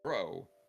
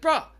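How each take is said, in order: First: The word ends in a long 'oh' vowel. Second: The word ends in a short 'uh' vowel. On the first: The speaker is fond of the person addressed. "It's the hard O means if you say bro, you have to like that person" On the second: The speaker reacts to being wronged. "Bruh is a reaction to being like you did something"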